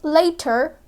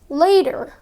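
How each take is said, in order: First: The middle consonant is a clear T. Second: The middle consonant sounds like a D. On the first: "Instead of saying later" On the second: "they say later"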